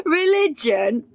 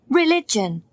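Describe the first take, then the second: First: Slow, rising disbelief on "Religion?"; surprised echo. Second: Said in the usual way. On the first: A narrator's reading. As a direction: ask "Religion?" like it's absurd. Incredulous echo of Gail's question.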